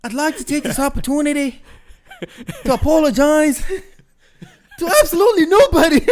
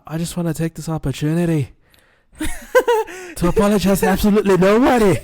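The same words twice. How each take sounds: First: High, loud Conor McGregor impression; cocky Irish brogue, faster at the end; Irish accent. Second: Put-on Conor McGregor Irish accent, high and loud; cocky Irish brogue, laughing through it. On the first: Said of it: "Oh, I love that quote". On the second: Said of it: "you guys are gonna have to excuse my Irish accent".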